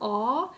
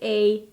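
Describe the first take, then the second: First: The vowel is said further back, Swedish-style. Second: The vowel is said further forward, English-style. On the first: "in Sweden, A is A. Like it's more further down" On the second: "like in the U S, you say A, A like English"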